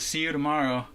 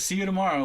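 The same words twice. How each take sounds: First: It is said in a subdued, sad tone. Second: It is said in a happy, cheerful tone.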